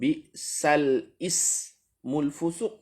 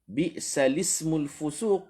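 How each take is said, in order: First: A glottal stop begins the second word. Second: The second word links smoothly to the first. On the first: The speaker calls it wrong. "bukan bi'sal ismul fusuq" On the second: The speaker calls it right. "Tak ada hamzah"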